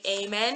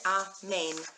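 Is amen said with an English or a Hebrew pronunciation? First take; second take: English; Hebrew. First: It is said with an English pronunciation. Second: It is said with a Hebrew pronunciation. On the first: The speaker calls it wrong. "in English, a lot of people say amen" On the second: The speaker calls it right. "in Hebrew, the translation, the pronunciation is amen"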